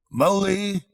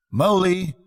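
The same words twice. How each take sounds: First: High call across the house. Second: High, louder cheerful shout; cheerful call. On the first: A narrator's reading. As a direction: call the friend's name from another room. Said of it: "Then he called". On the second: Acted. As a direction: hail a lost friend brightly through the wood. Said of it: "calling out cheerfully".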